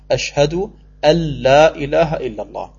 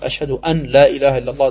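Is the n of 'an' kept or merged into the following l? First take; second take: merged; kept. First: The n merges into the following l sound. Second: The n is pronounced separately before the l. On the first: The speaker calls it right. "dann verschmilzt man das N in das L, das Nun in das Lam rein" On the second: The speaker calls it wrong. "das geht gerade noch, aber das ist auch heute schon, tut weh im Ohr"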